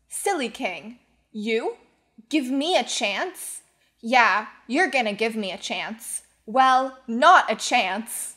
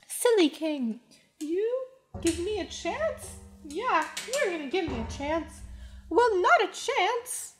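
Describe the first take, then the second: First: It is spoken as dialogue in a normal voice. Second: It is spoken in a Mickey Mouse voice.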